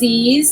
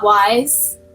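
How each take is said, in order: First: The name sounds like 'ease'. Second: The name sounds like 'wise'. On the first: The speaker calls it right. "So this is ease" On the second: The speaker calls it wrong. "not wise"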